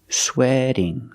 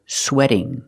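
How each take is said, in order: First: The T is a quick D-like flap. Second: The same.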